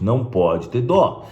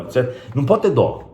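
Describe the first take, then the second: First: "não pode ter dó" slowed right down, each word weighed; very slow stressed "não pode ter dó"; slow emphatic repeat. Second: Said in the usual way. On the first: Shown as a demonstration. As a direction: drag out "não pode ter dó" to drive it home. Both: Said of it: "Isso é muito importante".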